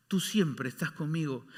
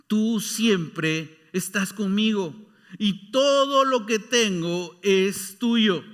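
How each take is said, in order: First: Said in the usual way. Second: Very slow and deliberate; slow fatherly words. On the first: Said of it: "el padre le responde". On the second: Acted. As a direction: let each word of the father land. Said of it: "le dijo su padre". (el padre le habla muy despacio)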